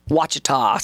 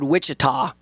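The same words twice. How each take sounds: First: "Ouachita" said WASH-ih-taw, W sound, no CH at the start; "Ouachita" starting WASH, not WITCH. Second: "Wichita" said WITCH-ih-taw, as the Kansas city; "Wichita" with a plain WITCH at the start. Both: Shown as a demonstration. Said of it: "keep in my head Wichita, Ouachita".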